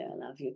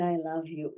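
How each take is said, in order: First: Softer and lower, say "I love you" gently like a gift; tender, soft I love you. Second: Said in the usual way. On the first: Shown as a demonstration. Teacher showing how to tell yourself I love you, softly. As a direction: let "I love you" fall soft and low. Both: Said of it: "it's healing to say".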